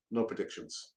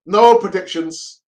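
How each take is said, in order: First: "No predictions" dropped much softer and lower; muttered refusal. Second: NO hit loud and slow, louder than the talk; a slow, loud "No predictions", leaning on NO; firm refusal. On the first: Fan repeating the refusal to himself, softer and lower. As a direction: trail off softly on "No predictions". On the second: Fan refusing a Palace prediction, slow loud NO. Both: Real, not acted.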